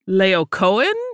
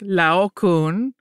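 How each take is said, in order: First: The vowels and consonants are pronounced hard. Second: The vowels and consonants are pronounced soft. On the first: "almost like with harder pronunciation of all of the vowels and consonants" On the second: "which is what a lot of Europeans seem to pronounce it like"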